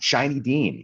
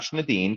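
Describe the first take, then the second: First: The name begins with a 'shy' sound. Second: The name begins with a 'shn' cluster. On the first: The speaker calls it right. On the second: The speaker calls it wrong.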